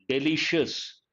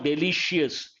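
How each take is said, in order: First: No extra 'ee' sound comes before the ending. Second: An extra 'ee' sound comes before the ending. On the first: The speaker calls it right. "I sound should not be there" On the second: The speaker calls it wrong. "Not delicious"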